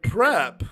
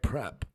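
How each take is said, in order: First: It is said moderately loud. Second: It is said quietly.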